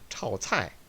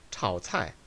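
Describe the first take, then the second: No difference in how they are said.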